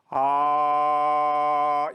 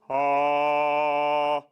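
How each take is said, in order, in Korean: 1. 이 모음은 입에서만 울립니다. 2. 이 모음은 더 높이, 코 쪽으로 올라가서 울립니다. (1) "입만 소리 내는 게 아니고" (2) "소리가 올라와야 된다는 것이죠"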